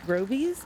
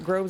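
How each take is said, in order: First: The name is said as Grovies. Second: The name is said as Groves. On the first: This is how the nursery says it. "I think that's how you pronounce it" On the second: This is how it was said before. "I used to pronounce it Groves"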